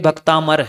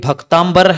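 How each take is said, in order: First: The middle has a plain 'm' sound: bhaktamar. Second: The middle has an 'mb' sound: bhaktambar. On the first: The speaker calls it right. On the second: The speaker calls it wrong.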